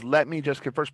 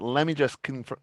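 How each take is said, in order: First: Each word is pronounced fully and separately. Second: It is said quickly with words blended together. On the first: "she's saying the words" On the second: "but it comes out, ... because it's coming out quickly"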